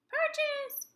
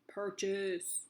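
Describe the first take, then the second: First: The word is said in a high squeaky voice. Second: The word is said in a deep growly voice. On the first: "mouse voice it" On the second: "monster voice it"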